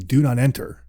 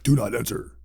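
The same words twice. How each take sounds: First: It is said in a plain speaking voice. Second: It is said in a spooky, eerie voice.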